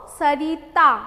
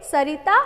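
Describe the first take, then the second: First: सरिता slowly split as स, री, ता; syllable by syllable. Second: Said in the usual way. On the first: Shown as a demonstration. Teacher showing which letter takes the matra, sounded out. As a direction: stretch सरिता into separate syllables with a long री. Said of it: "हम ई की मात्रा लगा के बोलेंगे". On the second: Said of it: "तो क्या बोलेंगे".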